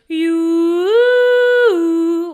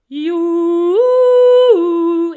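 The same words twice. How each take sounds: First: The vowel is spread and tense. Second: The vowel is open, tall and rounded. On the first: The speaker calls it wrong. "where we might create some more tension around the larynx" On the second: The speaker calls it right. "keep your um, your mouth very vertical"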